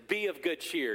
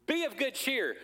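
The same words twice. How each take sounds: First: Said in the usual way. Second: "Be of good cheer" sung out high and bright like a Christmas greeting; "Be of good cheer" pitched up, festive. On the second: Shown as a demonstration. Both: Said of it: "Doesn't that sound like Christmas?".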